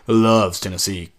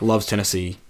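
First: It is said in a mocking, sarcastic tone. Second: It is said in a plain, sincere tone. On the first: It implies the opposite is true. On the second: It is meant literally.

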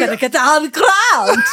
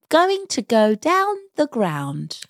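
First: 'Going to' is reduced to 'gonna'. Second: 'Going to' is said in full. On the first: The speaker calls it wrong. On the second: The speaker calls it right.

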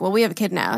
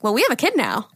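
First: It sounds resigned and negative. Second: It sounds excited and positive.

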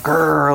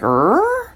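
First: The growl sounds angry. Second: The growl sounds questioning.

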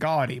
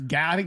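First: The first vowel is an 'aw' sound. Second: The first vowel is an 'ow' sound. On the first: The speaker calls it wrong. "I would say like gaudy" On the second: The speaker calls it right. "but it's gowdy. Gowdy's better"

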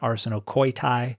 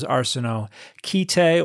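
First: The syllable after 'arseno' has an 'oy' vowel. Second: The syllable after 'arseno' has an 'ee' vowel.

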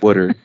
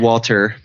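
First: It is said in a Philadelphia accent. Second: It is said in a standard accent.

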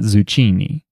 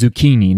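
First: The middle consonant sounds like ch. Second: The middle consonant sounds like k. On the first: The speaker calls it wrong. "not zucchini" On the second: The speaker calls it right. "CH is pronounced k. That's why it's zucchini"

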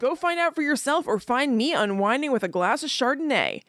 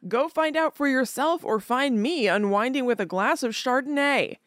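First: It is read at a faster pace. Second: It is read at a slower pace.

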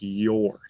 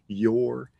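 First: The word starts with a J-like sound. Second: The word starts with a plain y sound. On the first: The speaker calls it wrong. "They're almost making it like a J sound" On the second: The speaker calls it right. "we are not making that G sound"

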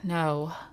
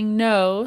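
First: It sounds passive aggressive, with a sigh. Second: It sounds clear and assertive.

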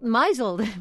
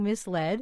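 First: The word is said like 'mizzled'. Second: The word is said as 'mis-led'. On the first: The speaker calls it wrong. "I said I felt misled" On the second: The speaker calls it right. "meaning misled"

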